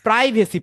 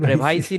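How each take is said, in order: First: The first syllable has an 'eye' vowel. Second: The first syllable has a short 'ee' vowel. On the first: The speaker calls it right. "প্রাইভেসি policy" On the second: The speaker calls it wrong. "প্রিভাইসি না"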